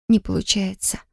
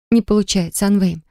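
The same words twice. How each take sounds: First: Soft breathy whisper. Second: Said in the usual way. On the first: A narrator's reading. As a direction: hush it, barely voiced. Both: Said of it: "прошептала я".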